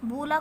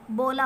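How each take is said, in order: First: बूला with a long 'oo' after b; vowel of 'food' in बूला; misreading with ऊ. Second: बोला with a long 'oh' after b; vowel of 'go' in बोला; correct reading with ओ. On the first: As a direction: say 'boo-laa' for बूला. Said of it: "बूला कुछ नहीं होता है". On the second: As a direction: say 'boh-laa' for बोला. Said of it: "हम इसे ओ पढ़ेंगे". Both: Shown as a demonstration.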